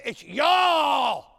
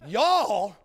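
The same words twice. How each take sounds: First: Mock Southern y'all. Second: Drawled Southern y'all. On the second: Retold or imitated. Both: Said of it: "They say".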